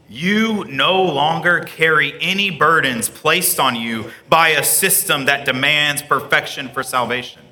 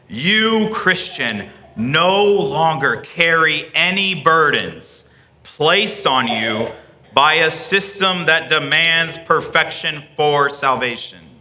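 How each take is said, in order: First: It is said at normal speed. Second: It is said slowly.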